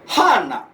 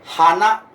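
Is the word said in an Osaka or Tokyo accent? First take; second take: Osaka; Tokyo. First: It is said with the Osaka pitch pattern. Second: It is said with the standard Tokyo pitch pattern. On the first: "di Osaka bisa hana" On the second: "itu di Jepang kan bunga"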